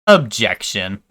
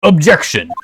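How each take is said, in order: First: Nasal, nerdy little objection; nerd voice. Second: Loud, forceful courtroom call; shouted objection. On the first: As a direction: say it like the nerd emoji. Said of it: "the nerd emoji voice". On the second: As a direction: slam it like a lawyer. Courtroom objection after nerd take. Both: Acted.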